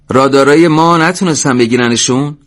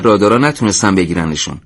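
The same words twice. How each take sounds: First: Raised, louder question on "رادارای ما", rising at the end; "نتونستن بگیرنشون" asked high with a final rise; incredulous question. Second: Said in the usual way. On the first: A narrator's reading. Commander asks over radio. (سؤال بلند با لحن خیزان روی «بگیرنشون»)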